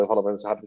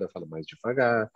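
First: A quicker run of words; faster speech. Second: Slow down on "eu falo mais devagar"; slower speech. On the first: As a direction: speed up on "eu falo mais rápido". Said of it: "Se eu quiser falar mais rápido". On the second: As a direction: ease off the speed. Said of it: "falar mais devagar". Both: Shown as a demonstration.

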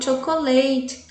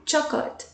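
First: "chocolate" in four syllables, cho-co-LA-te; "chocolate" the Portuguese way, all four syllables; wrong pronunciation. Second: "chocolate" in two beats, CHOK-let, softly; "chocolate" quietly, two syllables; correct pronunciation. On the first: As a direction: sound out every syllable of "chocolate". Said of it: "Eu não falo chocolate". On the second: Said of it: "É chocolate". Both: Shown as a demonstration.

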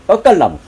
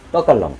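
First: 떡갈나무 called out high and loud; emphatic name call. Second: Said in the usual way. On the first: Real, not acted. Host showing off his tall oak to viewers, 떡갈나무 called out loud. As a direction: announce 떡갈나무 like a proud reveal. Naming plant, then repeating.

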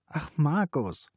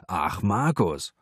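First: Slow, high weary reply; listless, drawn-out reproach. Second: Lightly mocking echo of her reply; quoting her reproachfully. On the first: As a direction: answer with tired reluctance, drawing it out. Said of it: "Sie fühlte sich müde und vollkommen lustlos". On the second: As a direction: throw her weary words back at her. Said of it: "das Einzige, was ich zu hören kriege". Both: A narrator's reading.

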